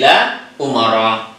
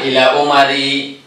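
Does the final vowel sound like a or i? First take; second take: a; i. First: The name ends in an a vowel. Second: The name ends in an i vowel. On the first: The speaker calls it right. "tapi ila umara" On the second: The speaker calls it wrong. "bukan ila umari, salah"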